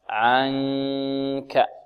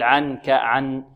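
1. يُخفى حرف النون في صوت أنفي قبل الكاف. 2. يُنطق حرف النون كاملاً بطرف اللسان. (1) "ننتقل من مخرج العين الذي هو وسط الحلق إلى مخرج الكاف مع من الخيشوم" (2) "لا نقول عن كعن، نأتي إلى طرف اللسان ونسقه في الحنك الأعلى، لا خطأ"

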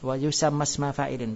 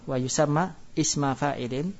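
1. Kata-katanya menyambung tanpa hamzah berhenti. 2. Ada jeda dan hamzah berhenti sebelum isma. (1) "Jadi kita enggak baca hamzanya" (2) "kalau dibaca berhenti"

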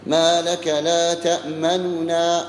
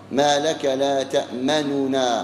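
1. تأتي بعد النون الأولى ضمة خفيفة جدًا. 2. تأتي بعد النون الأولى ضمة كاملة. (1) "وبينهما تأتي بها ثلث الحركة" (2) "ضمة كاملة خالصة"

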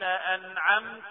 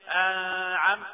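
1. صوت النون يُنطق بوضوح. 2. صوت النون لا يُنطق بوضوح. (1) "نظهر النون لأن وراها عين" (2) "ما ينفعش نقول إيه أنعمت، غلط"

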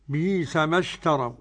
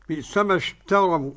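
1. الهمزة مُبدلة ياءً مدّية. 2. الهمزة مُحققة في الكلمة الأولى.

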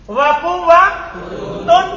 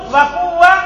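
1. Kata itu berakhir dengan bunyi -tun. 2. Kata itu berakhir dengan bunyi -ta. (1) "Boleh antum rofa" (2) "boleh antum nasob"

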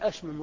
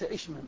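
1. تبدأ الكلمة بالحركة 'a'. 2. تبدأ الكلمة بالحركة 'i'. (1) "الفعل أشمم رباعي" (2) "وليس إشمم"

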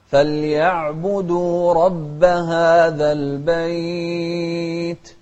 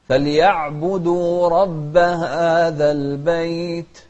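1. يُمَدّ الحرف الممدود أربع حركات. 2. يُمَدّ الحرف الممدود حركتين. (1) "وأربع حركات" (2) "مدينا حركتين"

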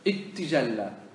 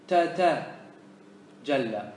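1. يندمج صوتا t في t واحدة مشددة. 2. يُنطق صوتا t منفصلين. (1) "ومن أدغم ... أراد التخفيف فيقول" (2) "هذا فك"

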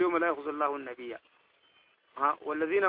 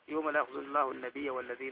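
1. يوجد وقف بعد "النبي". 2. لا يوجد وقف بعد "النبي". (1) "ودي ما تقول" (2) "شوف الوقف شنو في معه"

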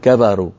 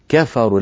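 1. صوت الفاء مشوّش وغير واضح. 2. يُنطق صوت الفاء بوضوح. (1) "ولا نقول كفروا، كفروا هكذا حرف يعني ليس له وضوح" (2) "لابد من بيان الفاء"

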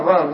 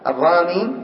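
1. تنتهي الكلمة بحرف ساكن. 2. تنتهي الكلمة بياء مد طويلة.

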